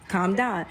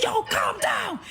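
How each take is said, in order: First: Said in the usual way. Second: High-pitched imitated shout; exasperated yell. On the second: Man ordering the panicking woman to settle, high shout. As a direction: re-enact yelling over someone's panic, pitch shot right up.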